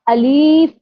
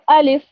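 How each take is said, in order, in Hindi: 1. दूसरे स्वर को लंबा खींचा जाता है। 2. दोनों स्वर छोटे और तेज़ होते हैं। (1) "लाम के साथ या को भी ऐड कर देते हैं, तो वो खींच के पढ़ा जाता है" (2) "सही तरह से प्रोनाउंस"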